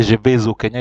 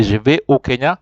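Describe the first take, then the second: First: "vais au" joined with a z, vez o; teacher demonstrates the forbidden link in "vais au"; wrong liaison. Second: "vais" as ve, no z before "au"; teacher models "vais au" unjoined; correct, no liaison. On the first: Teacher to class, the forbidden joining: vez o. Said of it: "You don't say". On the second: Teacher to class, the right way, ve o without linking. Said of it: "You say". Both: Shown as a demonstration.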